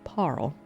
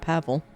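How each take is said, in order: First: The name has one syllable with no v sound. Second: The name has two syllables with a v sound. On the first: The speaker calls it right. "but it's Parl" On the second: The speaker calls it wrong. "I kept calling him Pavel"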